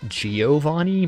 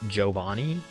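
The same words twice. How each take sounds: First: The name is said with English-style sounds. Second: The name is said with Italian-style sounds. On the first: "a lot of people say Giovanni" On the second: "the Italian pronunciation of the name is closer to Giovanni"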